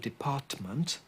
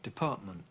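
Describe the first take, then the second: First: Both t sounds are fully pronounced. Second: Glottal stops replace both t sounds. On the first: "I didn't say department" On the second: "with another glottal stop at the end as well"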